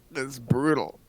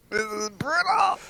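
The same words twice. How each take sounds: First: Said in the usual way. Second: High, drawn-out mock wail. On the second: Real, not acted. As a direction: wail the word brutal, slowly.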